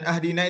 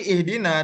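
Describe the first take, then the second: First: The word begins with an 'a' vowel. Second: The word begins with an 'i' vowel. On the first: Give us as a gift. The speaker calls it wrong. "perbedaan a dan i pada ihdina dan ahdina" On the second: Guide us. The speaker calls it right. "perbedaan a dan i pada ihdina dan ahdina"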